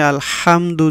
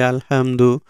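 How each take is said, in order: First: "আলহামদু" with a pressed mid-throat "হা"; correct throat H. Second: "আলহামদু" with a light, everyday "হা"; mistaken light H. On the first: Teacher shows the proper reading, "আলহামদু" with throaty H. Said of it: "যদি আমরা না বলে". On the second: Teacher shows the common mistake, "আলহামদু" with light H. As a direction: say "আলহামদু" with an unpressed H. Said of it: "তাহলে কিন্তু এই হার উচ্চারণ হলো". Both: Shown as a demonstration.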